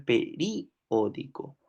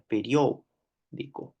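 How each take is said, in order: First: Periódico split into five syllables as pe-ri-ó-di-co, with the i and the o kept apart; teacher demonstrating how not to say periódico; wrong pronunciation. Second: Periódico said slowly with rió joined in one syllable as a diptongo; teacher modelling the right way to say periódico; correct pronunciation. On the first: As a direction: show the mistaken hiato reading of periódico. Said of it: "No es". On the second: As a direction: say periódico properly, gliding the i into the ó. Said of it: "es periódico". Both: Shown as a demonstration.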